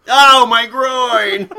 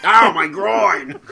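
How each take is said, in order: First: Loud, slow pained cry; just hit in the groin. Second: Slow pained cry; just hit in the groin. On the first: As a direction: howl as if just hit below the belt. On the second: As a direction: moan it like a hurt actor. Same quote repeated. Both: Retold or imitated.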